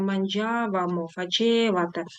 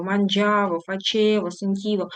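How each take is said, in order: First: Манджавамо, фачевате with stress shifted onto ВА; манджавАмо, фачевАте, the ending drawn out and stressed. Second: Манджаво, фачево, сентіво stressed on the second-to-last syllable; манджАво, фачЕво, сентІво, stress before the ending; stress on the stem. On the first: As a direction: slowly lean on ВА in манджавамо and фачевате. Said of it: "наголос зміщується на закінчення". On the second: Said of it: "наголос на основі дієслова". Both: Shown as a demonstration.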